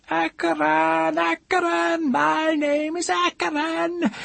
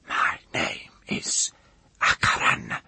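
First: Very high, drawn-out scream; screaming aloud. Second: Slow, voiceless whisper; intense whisper. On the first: Woman screaming her secret name aloud, shrieking. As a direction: scream the name out, slow and loud. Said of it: "Then she screamed aloud". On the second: Woman confiding her secret name, fierce whisper. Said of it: "She leant forward and whispered". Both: A narrator's reading.

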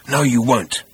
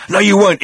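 First: Said in the usual way. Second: Much higher, louder refusal; loud insistent no. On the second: A narrator's reading. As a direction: push the no up hard, insisting. Zaphod defies the robot again.

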